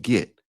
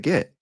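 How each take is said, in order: First: "get" said as "git". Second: "get" rhyming with bet; get with short E. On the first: Teacher echoing his mistake, "get" pronounced git. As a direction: say "get" with a short I. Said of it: "You said get". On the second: Student insisting to teacher, "get" with a short E. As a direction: say "get" with a clear E. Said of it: "No, I said get". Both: Retold or imitated.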